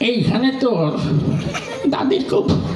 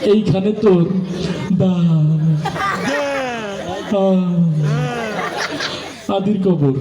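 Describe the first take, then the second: First: It is recited in an old man's chewing voice. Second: It is recited with a stutter on one word. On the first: The reciter is an old man chewing betel. "মুরব্বী মানুষ, পান খেতে খেতে আসছে" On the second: The reciter struggles to get words out. "একটা তোতলা ছেলে"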